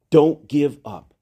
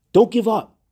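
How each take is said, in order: First: Don't give up, said slowly and gravely; slow it down and mean it; slow sincere urging; slow earnest plea. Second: Don't lifted high and strong; raised urging plea; rousing plea. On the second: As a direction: call it out to lift them. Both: Shown as a demonstration.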